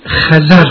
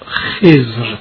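First: It is two syllables with a and a vowels. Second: It is one syllable with a short e vowel. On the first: This is an occasional, less common pronunciation. "بر وزن نظر" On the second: This is the widely known, usual pronunciation. "برخی این کلمه را خضر تلفظ می کند، مشهور هم همین است"

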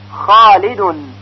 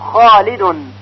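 No difference in how they are said.

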